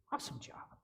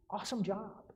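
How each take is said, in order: First: "awesome job" whispered much softer; a hushed, whispered "awesome job". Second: Said in the usual way. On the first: Shown as a demonstration. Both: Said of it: "we simply want you to go".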